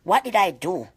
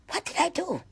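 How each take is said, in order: First: Said in the usual way. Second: High, soft, anguished question; pained plea. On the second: Real, not acted. Pained memory of beating.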